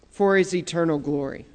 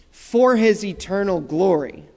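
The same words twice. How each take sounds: First: Softer, hushed repeat of "For His eternal glory"; soft echo. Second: Said in the usual way. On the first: Shown as a demonstration. Preacher echoing his own line to the congregation, softly. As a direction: let the echo sink to a near hush.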